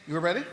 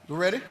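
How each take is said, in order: The two takes are said the same way.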